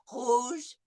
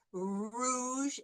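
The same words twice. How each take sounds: First: Rouge with a throaty French r from the back. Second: Rouge with the English r, tongue forward. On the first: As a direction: say rouge with a uvular r. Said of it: "the French R". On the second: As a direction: say rouge with an American r. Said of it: "with the English R". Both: Shown as a demonstration.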